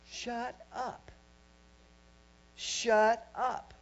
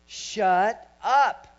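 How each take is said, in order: First: Firm, raised-pitch "shut up", held back from yelling; restrained command. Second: Loud, high "shut up", punched out; forceful command. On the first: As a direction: tell them off while still being nice. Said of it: "I'm being nice with you right now". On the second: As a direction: shout down intrusive thoughts. Reenacts scolding his own thoughts. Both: Retold or imitated.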